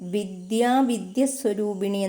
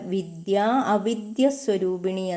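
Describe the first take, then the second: First: The words are run together as one. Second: The words are kept separate, avidya fully sounded. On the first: The speaker calls it wrong. "എന്നല്ല" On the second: The speaker calls it right. "എന്നാണ് ഉച്ചരിക്കേണ്ടത്"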